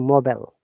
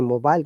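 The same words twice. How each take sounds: First: It is said with an American pronunciation. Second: It is said with a British pronunciation. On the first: "they say mobile" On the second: "Americans do not say mobile"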